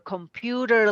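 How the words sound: It is said in an American accent.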